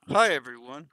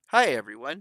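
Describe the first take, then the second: First: It is said through gritted teeth. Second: It sounds excited but hollow.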